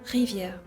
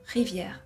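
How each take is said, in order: Both takes have the same delivery.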